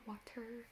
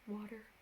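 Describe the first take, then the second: First: The middle consonant sounds like a T. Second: The middle consonant sounds like a D. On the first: "not water" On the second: "Like with a D type sound"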